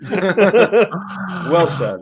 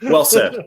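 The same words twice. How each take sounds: First: Laughing through the words. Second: Said in the usual way. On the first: Real, not acted. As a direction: repeat it while laughing.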